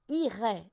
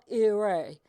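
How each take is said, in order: First: The first vowel is a pure, tense French 'ee'. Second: The first vowel sounds English-like, not a pure 'ee'. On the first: The speaker calls it right. "le i, ça se prononce vraiment ir" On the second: The speaker calls it wrong. "C'est pas irai"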